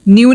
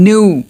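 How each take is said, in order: First: "new" said as "nyoo"; "new" with a y after the n; pronunciation to avoid. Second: "new" said as "noo"; "new" with n going straight into oo; stylish pronunciation. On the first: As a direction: put a y-glide in "new". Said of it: "new नहीं". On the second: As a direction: drop the y from "new". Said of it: "stylish वे में बोलना". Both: Shown as a demonstration.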